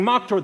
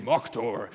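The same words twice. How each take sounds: First: Raised, higher crowd cry; half-shouted imitation of a screaming bar; mock scream. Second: Lightly voiced barkeep, pitched lower; a hint of the low-voiced bartender; barkeep's voice. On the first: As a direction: call it out like the whole bar, mildly. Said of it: "everyone in that bar screaming". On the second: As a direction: drop the pitch slightly for the barkeep. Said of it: "the sound of the barkeep saying".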